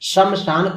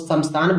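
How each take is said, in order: First: The word begins with an 'sh' sound. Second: The word begins with an 's' sound. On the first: The speaker calls it right. "तालाब श का प्रयोग जहां पर होना चाहिए" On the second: The speaker calls it wrong. "दंती स का उच्चारण करती है"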